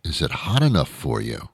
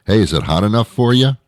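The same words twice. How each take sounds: First: Softer, mock-incredulous repeat of a silly question; understated imitation, softly questioning; baffled quoting back. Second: Mock hearty greeting, higher with a rising question; higher, goofy small-talk voice; stupid small-talker. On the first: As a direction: quote it back in puzzled disdain. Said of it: "what kind of question is that". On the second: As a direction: imitate a clueless passer-by making a lame joke. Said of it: "they actually sound and look stupid".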